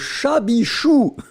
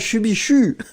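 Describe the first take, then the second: First: The first syllable has an open 'a' vowel. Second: The first syllable has a rounded 'u' vowel. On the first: The speaker calls it right. "C'est le chabichou" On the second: The speaker calls it wrong. "c'est pas chubichu"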